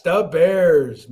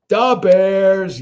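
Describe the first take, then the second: First: Chicago fan cheer. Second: Da Bears, loud and high, heavy Chicago accent; Chicago sports fan cheer. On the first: Streamer repeating da Bears to chat, Chicago accent. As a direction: echo the Chicago chant. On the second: Streamer shouting Da Bears to chat, loud Chicago accent. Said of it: "Da Bears". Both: Shown as a demonstration.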